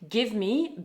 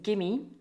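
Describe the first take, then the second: First: Both words are said fully and separately. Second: The words run together into one reduced word.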